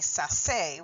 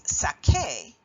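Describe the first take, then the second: First: The middle consonant is a soft S sound. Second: The middle consonant is a hard K sound. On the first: The speaker calls it wrong. "with a soft sound, say S" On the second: The speaker calls it right. "a hard sound"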